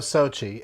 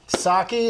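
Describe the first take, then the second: First: The middle consonant is a ch sound. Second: The middle consonant is a hard k sound. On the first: The speaker calls it wrong. "what's their first attempt usually? ... They go Sochi" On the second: The speaker calls it right. "did I say it right? / Yes, that was amazing"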